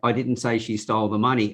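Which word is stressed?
none. It is said flat, with no word stressed.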